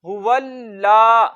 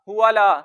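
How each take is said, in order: First: The 'l' is held, doubled with a slight stop. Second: The 'l' is short, with no hold. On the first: The speaker calls it right. "लाम पे थोड़ा सा रुकेंगे" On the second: The speaker calls it wrong. "इस तरह नहीं पढ़ेंगे"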